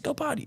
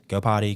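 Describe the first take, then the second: First: It is said in an excited, praising voice. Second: It is said in a flat, monotone voice. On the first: The dog is being praised enthusiastically. The speaker calls it wrong. "high praise, ... like that" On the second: Nothing exciting is happening, so stay calm. The speaker calls it right. "I'm in a monotone voice"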